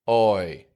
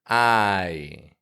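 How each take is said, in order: First: The vowel starts rounded, close to 'oh'. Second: The vowel starts with an open, strong 'ah'. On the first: It sounds closer to British English. The speaker calls it wrong. "If your tongue's too low in your mouth, you're going to get a sound like oi" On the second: It sounds like American English. The speaker calls it right. "The ah part of the word is clear and strong. The yi is quick and quiet"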